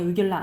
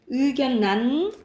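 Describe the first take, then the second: First: The middle consonants are pronounced as l-l. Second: The middle consonants are pronounced as n-n. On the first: The speaker calls it wrong. "의결란이 아니에요" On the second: The speaker calls it right. "발음으로 기억해. 의견난"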